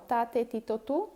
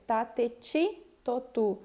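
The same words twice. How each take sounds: First: TI with a plain hard T, Spanish style; pronúncia espanhola. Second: TI softened to "chee"; pronúncia brasileira. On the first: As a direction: say "ti" as in Spanish, no ch sound. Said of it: "no espanhol". (pronúncia espanhola, "ti" com T seco) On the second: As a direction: say "ti" as Brazilian "tchi". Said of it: "No português". (pronúncia brasileira, "ti" como "tchi") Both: Shown as a demonstration.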